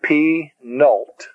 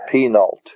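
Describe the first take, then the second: First: Penult slowly split as pe... nult; syllable by syllable. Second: Said in the usual way. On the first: Shown as a demonstration. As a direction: break Penult into two drawn-out syllables. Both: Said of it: "is called the penult".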